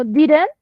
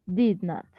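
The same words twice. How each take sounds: First: "didn't" run together as one word; "didn't" as a contraction, ending raised; contracted form. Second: "did not" as two separate words, softer; "did not" in full, both words sounded; full form. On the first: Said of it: "va a haber una contracción". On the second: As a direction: say "did not" uncontracted, falling and low. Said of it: "o como". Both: Shown as a demonstration.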